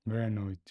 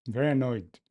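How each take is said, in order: First: Quick muttered annoyed. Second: Very annoyed, said much louder. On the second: Coder declares his annoyance at the code, loudly. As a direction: announce the annoyance out loud. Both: Shown as a demonstration.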